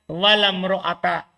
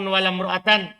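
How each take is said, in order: First: The last word ends with a bare -a sound. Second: The last word ends with an -an sound. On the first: The noun is built on a fixed ending. "wal bina alal fathi" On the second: The noun takes the accusative case. "wan nasab"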